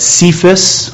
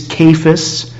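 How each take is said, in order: First: Cephas with a soft C, SEE-fus. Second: Cephas with a hard C, KAY-fus. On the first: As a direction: start Cephas with an S sound, as in "see". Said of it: "some people pronounce that Cephas". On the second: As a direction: start Cephas with a K sound, as in "kay". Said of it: "I think it's a hard C". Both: Shown as a demonstration.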